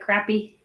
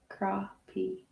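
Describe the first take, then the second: First: It is said the jokey way others use. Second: It is said the way locals pronounce it. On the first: It is said as a joke. The speaker calls it wrong. "a lot of people say crappie, joking around" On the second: It is how people here say it. The speaker calls it right. "We pronounce it crappie here"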